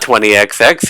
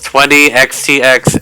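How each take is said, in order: First: No 'tee' sound comes between the two X's. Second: A 'tee' sound comes between the two X's. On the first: The speaker calls it wrong. "It is not twenty X X" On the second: The speaker calls it right. "that is the official pronunciation of this game"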